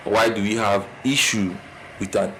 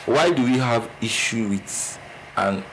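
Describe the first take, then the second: No difference in how they are said.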